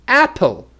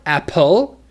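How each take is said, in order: First: "Apple" high on AP, then falling; stress on first syllable. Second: "apple" with loud, rising second syllable; stress on last syllable. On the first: Teacher correcting students, "Apple" stressed on the first syllable. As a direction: punch the start of "Apple". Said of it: "not apple". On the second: Showing students a mistake, "apple" stressed on the last syllable. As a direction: swing "apple" up at the end, apPLE. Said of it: "That is the wrong stress". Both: Shown as a demonstration.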